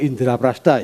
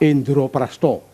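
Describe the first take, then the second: First: The vowels are pronounced as open 'a' sounds. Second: The vowels are pronounced as rounded 'o' sounds.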